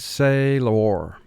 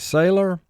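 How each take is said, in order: First: Split into two syllables, with a clear 'lor'. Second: Said smoothly as one word, like everyday speech. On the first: This form helps with spelling the word. "but for spelling, say-lor" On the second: This is how the word is said in normal talk. "in conversation, we would say sailor"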